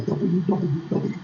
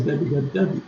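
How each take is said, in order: First: The Ws are said in a standard way. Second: The Ws are said in a Southern way.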